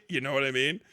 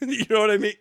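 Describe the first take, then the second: First: Put-on voice. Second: Said in the usual way. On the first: Repeated in other voice.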